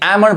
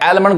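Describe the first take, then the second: First: The l sound is silent. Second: The l sound is pronounced. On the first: The speaker calls it right. "एल silent है" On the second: The speaker calls it wrong. "गलत पढ़ाएगा"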